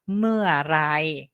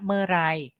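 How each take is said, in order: First: The word is said slowly with every syllable full. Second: The word is said quickly with syllables run together. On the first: "Bacanya sebenarnya bacanya mea, mearai" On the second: "Kalau kita baca cepat jadinya merai"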